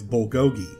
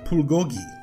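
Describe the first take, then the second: First: It is said with an English-style pronunciation. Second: It is said with a Korean-style pronunciation. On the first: This is how most people outside Korea say it. The speaker calls it wrong. "anyone outside of Korea knows this word as bulgogi" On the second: This is how people in Korea say it. The speaker calls it right. "in Korea, it's pronounced bulgogi"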